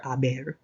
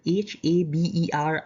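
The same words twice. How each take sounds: First: Said in the usual way. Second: H A B E R spelled letter by letter; spelling out a word. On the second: Shown as a demonstration. Teacher spelling out H A B E R for students.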